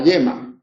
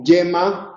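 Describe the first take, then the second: First: The y is a smooth continuous sound without stop. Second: The y starts with a brief stop, like 'dy'.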